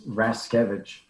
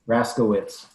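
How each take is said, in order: First: The name ends with a 'kevich' sound. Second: The name ends with a 'kowitz' sound. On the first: This is how the family says it. "It's Raskevich" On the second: This is how most people read it. "Raskowitz is what most people say"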